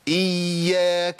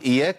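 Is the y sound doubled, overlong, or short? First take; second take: overlong; short. First: The y sound is stretched overlong. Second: The y sound is single and short. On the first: "طب احنا كده زودنا الزمن" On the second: "أما أقول إياك يبقى أنا جبت يا واحدة"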